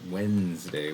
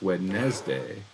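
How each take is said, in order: First: The first d is silent, like 'Wenzday'. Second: Every letter is sounded, including the first d. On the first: This is how people normally say it. "We pronounce it Wednesday" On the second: This follows the written spelling. "the way it's spelled, it seems like it should be Wednesday"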